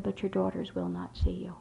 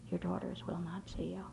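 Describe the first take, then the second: First: Said in the usual way. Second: Breathy whisper of bad news. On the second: Dean telling a mother her daughters refuse her, whispered. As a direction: repeat it under your breath, gently.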